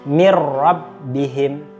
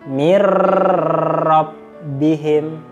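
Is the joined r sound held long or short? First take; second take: short; long. First: The joined r sound is short and plain. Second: The joined r sound is drawn out long. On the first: The speaker calls it right. "maka dibaca mir rabbihim" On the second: The speaker calls it wrong. "tidak boleh dipanjangkan"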